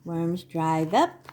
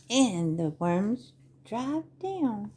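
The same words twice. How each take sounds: First: "up" lifted at the end; rising tune on UP. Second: "down" drawn out and falling; falling tune on DOWN. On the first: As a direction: let the pitch climb on "up". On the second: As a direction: let the pitch sink on "down". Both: Acted. Tune mirrors up versus down.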